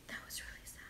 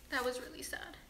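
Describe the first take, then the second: First: Breathless whisper, no voice at all. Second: Said in the usual way. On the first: Real, not acted. To viewers after the sad letter, whispering it. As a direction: let it fall to a bare whisper.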